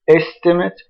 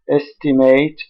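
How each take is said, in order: First: The stress is on the first syllable. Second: The stress is on the second syllable. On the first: The word is used as a noun. "the noun estimate is stressed on the first syllable" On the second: The word is used as a verb. "The verb estimate estimate is stressed on the second syllable"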